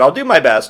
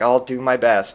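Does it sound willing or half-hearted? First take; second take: willing; half-hearted. First: It sounds willing and ready to help. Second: It sounds reluctant, with no heart in it.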